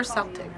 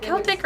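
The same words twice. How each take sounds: First: Celtic with a soft S sound; Celtic starting like "sell"; soft-C pronunciation. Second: Celtic with a hard K sound; Celtic starting like "kelp"; hard-C pronunciation. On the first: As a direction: say Celtic as SEL-tik. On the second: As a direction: say Celtic as KEL-tik. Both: Shown as a demonstration. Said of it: "is it Celtic or Celtic?".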